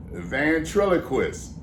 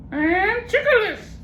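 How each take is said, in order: First: Ventriloquist drawn out slowly, every syllable clear; slow careful ventriloquist. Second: Very high slow parrot garbling a long word. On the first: Shown as a demonstration. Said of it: "Say it". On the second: Acted.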